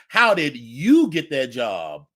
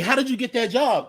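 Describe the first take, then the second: First: It sounds resentful and throwing shade. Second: It sounds friendly and genuinely curious. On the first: The asker resents the person for leaving. "So you get the shade" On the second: The asker wants help getting a similar job. "like, hey"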